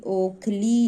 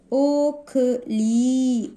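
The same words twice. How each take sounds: First: Said in the usual way. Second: ओखली very slow, split as o, kha, lee; sounding out. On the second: Shown as a demonstration. Teacher showing how to pronounce vowel signs, very slow syllables. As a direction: stretch every syllable of ओखली. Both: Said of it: "इस तरीके से हमें मात्राओं का उच्चारण करना है".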